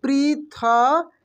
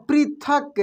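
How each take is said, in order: First: पृथक stretched very slowly, the ri held; drawn-out spelling-out. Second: Said in the usual way. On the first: Shown as a demonstration. Teacher to pupils, spelling out the word slowly. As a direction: sound out पृथक syllable by syllable. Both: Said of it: "देखेंगे ये पृथक".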